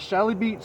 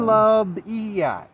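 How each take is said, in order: First: The name begins with an SH sound. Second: The name begins with a K sound. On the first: The speaker calls it wrong. "I was pronouncing it wrong" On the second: The speaker calls it right. "this C H is actually pronounced as a K"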